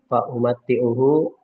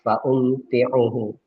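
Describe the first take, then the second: First: The m has a vowel and t is doubled. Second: The m has no vowel and t is single. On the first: "memfathahkan mim dan mentasdidkan ta" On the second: "mensukunkan min mim dan meringankan ta"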